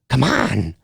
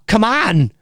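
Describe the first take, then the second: First: It is said excitedly at a lower, deeper pitch. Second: It is said at the voice's usual, higher pitch.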